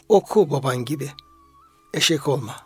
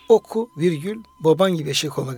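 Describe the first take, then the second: First: There is a pause after "gibi". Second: There is a pause after "oku".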